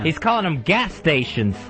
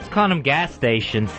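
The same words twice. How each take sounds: First: The word gas is strongly emphasized. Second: The word gas is not emphasized.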